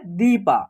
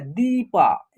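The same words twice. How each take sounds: First: Said in the usual way. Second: दीपा with the ई drawn out; long vowel. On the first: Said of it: "क्या लिखा हुआ है?". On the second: Shown as a demonstration. Teacher demonstrating a long ई, दीपा stretched out. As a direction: hold the first syllable of दीपा for a while. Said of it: "उच्चारण हो रहा है long हो रहा है".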